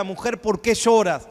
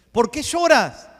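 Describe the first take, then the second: First: Slow, measured question from Jesus; Jesus asking gently. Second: Higher, louder repeat of the question; Jesus pressing the question. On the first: Jesus asks weeping Mary, slow and gentle. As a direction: ask it slowly, like Jesus tenderly questioning. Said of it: "le dijo a María". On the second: Jesus presses Mary again, higher and louder. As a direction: lift it up and push the question harder. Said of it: "le dijo el Señor". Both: Retold or imitated.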